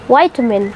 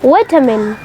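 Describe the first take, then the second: First: The first syllable has a long 'eye' sound. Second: The first syllable has a short 'i' sound. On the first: This is how American speakers say it. "जो US के लोग हैं वो इसे क्या कहते हैं? वाइटामिन" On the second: This is how British speakers say it. "जो यूके के लोग हैं वो इसको बोलते हैं विटामिन"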